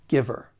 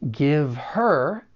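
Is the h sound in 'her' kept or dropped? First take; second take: dropped; kept. First: The h is dropped and the words link. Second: The h sound of 'her' is pronounced.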